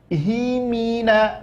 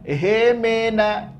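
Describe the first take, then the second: First: The vowels are full, clear i sounds. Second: The vowels are blurred, not clear i sounds. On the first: The speaker calls it right. "mimnya baris bawah, haknya baris bawah. Ingat, jelaskan" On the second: The speaker calls it wrong. "Jangan hemena"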